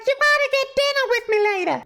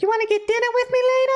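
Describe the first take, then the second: First: Very high, insistent falsetto showgirl; showgirl repeating herself. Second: Put-on quick, squeaky-high ditzy girl voice; showgirl asking him out. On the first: Retold or imitated. Showgirl repeats her invitation through the tank glass, piercingly high falsetto. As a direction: squeal it through thick glass. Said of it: "I can't hear you". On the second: Showgirl asks the man in the tank to dinner, high falsetto. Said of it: "so she's asking him out".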